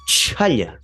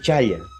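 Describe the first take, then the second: First: The ch has a strong puff of air. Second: The ch is plain, with no puff of air. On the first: The speaker calls it right. "sería chaya" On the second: The speaker calls it wrong. "No puedo decir chaya, no"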